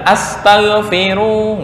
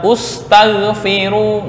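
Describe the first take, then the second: First: The word begins with an a vowel. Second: The word begins with a u vowel. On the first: "bukan astaghfiru" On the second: "nggak boleh dibaca ustaghfiru"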